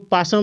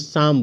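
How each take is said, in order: First: The word begins with a sounded p. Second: The word begins without any p sound. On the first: The speaker calls it wrong. "इसको पासम नहीं बोलेंगे" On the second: The speaker calls it right. "शाम बोलेंगे"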